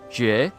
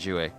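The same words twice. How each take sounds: First: The name is said with Chinese pronunciation. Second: The name is said with anglicized pronunciation. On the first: "in Chinese. It's pronounced Jue" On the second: "But I just say Jue"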